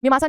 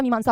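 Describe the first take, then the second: First: First मीमांसा with a short "me" opening; wrong form. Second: मीमांसा with long "ee" in the first syllable; correct form. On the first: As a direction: say मीमांसा as "me-maansa". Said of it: "मीमांसा नहीं होता". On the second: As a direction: say मीमांसा as "mee-maansa". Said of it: "मीमांसा होता है वो". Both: Shown as a demonstration.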